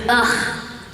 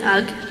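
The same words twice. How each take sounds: First: It is a wordless groan of disgust. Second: It is read out literally, following the letters. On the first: This is how the line was meant. The speaker calls it right. "it was ugh" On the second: This is how the written word was read aloud. The speaker calls it wrong. "because it's the way it's spelled"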